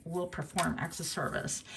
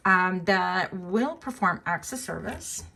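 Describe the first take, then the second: First: Mocking repeat. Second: Slow, with "will" rising as if proclaiming; theatrical. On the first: Reader quietly echoing her own theatrical phrase. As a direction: mutter it back to yourself, amused. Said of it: "so theatrical". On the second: Reader announcing admirers' acts of service, theatrically slow. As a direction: lean on "will" and draw the phrase out grandly. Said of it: "That sounds, like, so theatrical". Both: Shown as a demonstration.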